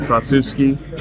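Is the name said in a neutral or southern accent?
neutral. It is said in a neutral accent. This is the speaker's own pronunciation.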